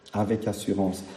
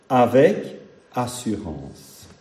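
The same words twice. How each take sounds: First: "avec assurance" repeated much softer, like an echo. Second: "avec assurance" drawn out slowly; slow emphasis. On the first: Preacher echoing his key phrase to the congregation, softly. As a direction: drop "avec assurance" to a hush. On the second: Preacher telling the faithful how to approach the throne, slow. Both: Real, not acted.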